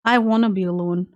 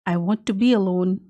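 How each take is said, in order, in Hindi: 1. 'Want to' तेज़ी से बोला जाता है और 'wanna' में मिल जाता है। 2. 'Want to' धीरे-धीरे दो पूरे शब्दों की तरह बोला जाता है।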